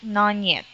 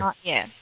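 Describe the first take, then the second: First: The T in 'not' becomes an N sound. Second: The T in 'not' is clearly kept. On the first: The speaker calls it wrong. "you tend to say it non yet" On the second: The speaker calls it right. "It should be pronounced as"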